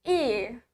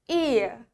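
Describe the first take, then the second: The two takes are said the same way.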